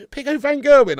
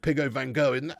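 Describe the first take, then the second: First: Loud announcer call. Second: Said in the usual way. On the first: Shown as a demonstration. Streamer booming the player's name to chat. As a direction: shout the name big and high. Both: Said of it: "I don't know".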